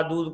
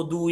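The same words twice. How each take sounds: First: Said in the usual way. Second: दूध cut to दू, final dh dropped; toddler's mispronunciation. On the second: Retold or imitated. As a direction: say दू for दूध, like a child learning to talk. (दूध का आख़िरी ध छोड़कर बच्चे जैसा दू) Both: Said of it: "दूध को दू या बू बोलता होगा".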